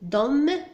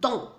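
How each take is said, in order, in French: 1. Le mot se termine par une consonne m audible. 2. Le mot se termine par une voyelle nasale, sans consonne. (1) "لا نقول dom" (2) "وإنما dans"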